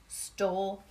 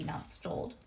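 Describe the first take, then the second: First: Teacher's calm correction; correct word. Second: Put-on "stoled" repeated as the child's mistake; teacher quoting the wrong form; wrong word. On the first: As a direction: correct it to "Stole". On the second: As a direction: quote back "stoled". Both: Shown as a demonstration. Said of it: "The word is stole".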